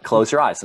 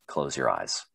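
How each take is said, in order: First: Louder, exasperated repeat of an order; insistent instructor. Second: Low, soft imitated command; instructor's low order. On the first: Retold or imitated. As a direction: lightly mimic an instructor insisting on being heard. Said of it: "not fucking hearing me". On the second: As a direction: give the order calmly, dropped low and quiet.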